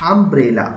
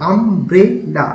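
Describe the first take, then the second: First: Said in the usual way. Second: "umbrella" drawn out in three beats, আম-ব্রে-লা; split into syllables. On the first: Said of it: "এখানে কটা আছে". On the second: Shown as a demonstration. Teacher showing three syllables, "umbrella" divided into আম, ব্রে, লা. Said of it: "এখানেও তিনটা আছে".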